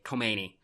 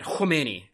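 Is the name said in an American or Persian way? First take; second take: American; Persian. First: It is said with an American pronunciation. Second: It is said with an attempted Persian pronunciation.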